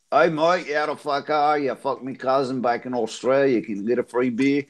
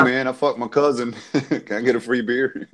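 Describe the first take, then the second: First: Broad Aussie bogan imitation; Australian accent. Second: Half-hearted South Carolina accent; Southern US accent. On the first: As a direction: chat up the pub like an Australian. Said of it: "I sound like an Australian cousin fucker". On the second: Shown as a demonstration. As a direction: attempt a mild American Southern accent. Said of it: "say that in southern South Carolina".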